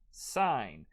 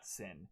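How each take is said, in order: First: It has a long vowel, rhyming with pine. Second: It has a short vowel, rhyming with pin. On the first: The speaker calls it right. "You pronounce this as sign" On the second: The speaker calls it wrong. "it is not sin"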